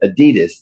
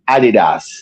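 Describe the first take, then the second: First: It is said the American English way. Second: It is said the German way.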